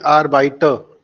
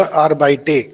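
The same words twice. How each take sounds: First: Arbeiter ending in a short "-tuh", no r; final e as schwa. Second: Arbeite ending in a full "-tay"; final e as ay. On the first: Shown as a demonstration. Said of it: "इसको बोले arbeiter". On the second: Retold or imitated. Teacher repeats student's mistake, arbeite ending in "-tay". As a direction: say arbeite with a long clear ay at the end. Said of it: "आपने बोला arbeite".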